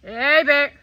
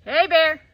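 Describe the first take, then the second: First: Firm shout to make it leave; scaring off a bear. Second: Loud, firm call at a bear; scaring off a bear. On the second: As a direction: shout to scare a bear away. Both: Real, not acted.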